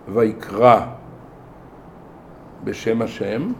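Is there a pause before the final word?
No. No break falls before the final word. Moses called out in God's name. The speaker calls it wrong. "לא להגיד ויקרא בשם השם"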